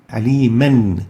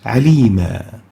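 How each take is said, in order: First: The word ends with an n sound. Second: The word ends with a lengthened a vowel. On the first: The reciter continues on to the next word. "the tanween on aliman is practically pronounced with a noon after the meme" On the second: The reciter stops on this word. "in case of stopping on that aliman, it's pronounced as alima"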